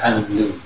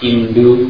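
First: The syllable begins with an open 'a' vowel. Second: The syllable begins with a close 'i' vowel. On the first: This is how Arabic speakers say it. "Mereka andu" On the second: This sound is hard for Arabic speakers. "Kalau indu itu bukan lisannya mereka"

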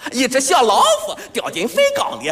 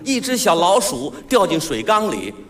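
First: It is said in southern Shandong dialect pronunciation. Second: It is said in standard Mandarin pronunciation. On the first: "用它一说有特点说出来这味儿的" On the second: "有这么一句话"

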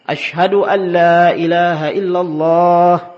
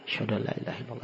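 First: The phrase is said loudly and fully voiced. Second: The phrase is said very softly and quietly. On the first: It is meant to be heard by everyone. "diulangi lagi dengan suara yang keras" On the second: Almost only the caller himself hears it. "dengan suara yang lirih. Kecil sekali"

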